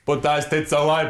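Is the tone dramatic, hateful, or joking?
joking. It is said in a light, playful joking tone. The speaker is only kidding around. "Maybe he said it as a joke"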